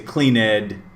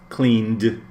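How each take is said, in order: First: The ending is an extra syllable. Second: The ending is a plain D sound. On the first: The speaker calls it wrong. "You can't say clean ed" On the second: The speaker calls it right. "the ed will sound like a D"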